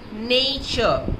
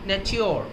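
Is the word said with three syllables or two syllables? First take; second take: two; three. First: It is said with two syllables, modern style. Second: It is said with three syllables, older style. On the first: The speaker calls it wrong. "should not be pronounced as nature, N-A-Y-C-H" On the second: The speaker calls it right. "as nature O with three syllables"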